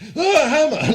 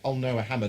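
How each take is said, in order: First: It is said in an alarmed, panicked way. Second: It is said calmly and flatly.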